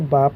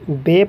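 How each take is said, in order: First: The letter name ends in an 'ah' vowel. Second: The letter name ends in an 'eh' vowel. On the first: This is the Arabic way of reading it. The speaker calls it right. "Arabic के अंदर हम इसको बा पढ़ेंगे" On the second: This is the Urdu way of reading it. The speaker calls it wrong. "Urdu के अंदर हम इसको बे पढ़ते हैं"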